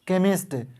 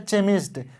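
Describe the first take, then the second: First: The word begins with a 'k' sound. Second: The word begins with a 'ch' sound. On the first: The speaker calls it right. "यानी क का sound आ रहा है" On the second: The speaker calls it wrong. "इसको ऐसा नहीं पढ़ेंगे चेमिस्ट, ये गलत है"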